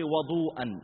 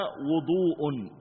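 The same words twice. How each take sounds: First: Slow "وضوءا" as wadu-an; fatha on the waw. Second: Very slow "وضوء" as wudu-un; damma on the waw. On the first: Teacher's example of asking for water, "وضوءا" with fatha on waw. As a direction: draw out "وضوءا" with an open "wa" first. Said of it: "وضوء بالفتح". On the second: Teacher contrasting the act with the water, "وضوء" with damma on waw. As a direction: stretch "وضوء" with a rounded "wu" first. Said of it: "هو الفعل نفسه بضم الواو". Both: Shown as a demonstration.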